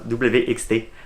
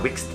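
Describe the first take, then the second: First: The name is spelled out as three separate letters. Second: The name is said as a single word. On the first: "Comme ça, W X T" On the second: "il y en a beaucoup qui disent l'agent Wixt"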